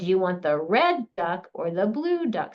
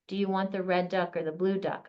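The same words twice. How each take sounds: First: The color words get strong vocal emphasis. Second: The color words get no extra emphasis. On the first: "vocal emphasis is a part of it too, of highlighting whatever feature" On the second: "I didn't just say"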